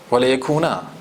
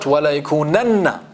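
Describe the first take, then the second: First: يَكُونَا ending on a short plain -na; light ending, no emphasis. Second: يَكُونَنَّ with a hard doubled noon at the end; emphatic ending. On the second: Teacher to class, showing the wrong version with an emphatic يَكُونَنَّ. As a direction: stress the -nanna in يَكُونَنَّ. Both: Shown as a demonstration.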